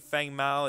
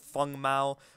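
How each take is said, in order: First: The first word is said like 'fang'. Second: The first word is said like 'feng'. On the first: The speaker calls it wrong. "It's not actually Fang Mao" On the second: The speaker calls it right. "It's Feng Mao"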